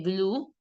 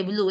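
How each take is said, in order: First: BLUE as one vowel, "bloo"; blue said "blu", single vowel; English pronunciation. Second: BLUE as two vowels, "blu-e"; wrong-way demo, blue read as "blué"; Spanish spelling reading. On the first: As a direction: say blue with a silent E. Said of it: "¿Qué pronuncias?". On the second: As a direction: say blue with the final E sounded. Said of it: "en vez de blue". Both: Shown as a demonstration.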